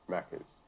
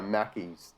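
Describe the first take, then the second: First: "Macca's" said short, with a clipped "-ca" ending, as the proper Aussie name. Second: "Mackey's" said with a drawn-out "-ey" ending, slowly, as the wrong form. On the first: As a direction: say "Macca's" plainly the local way. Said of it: "you just say Macca's". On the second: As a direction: slowly sound out "Mackey's" as the mistaken name. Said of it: "that's not a word". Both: Shown as a demonstration.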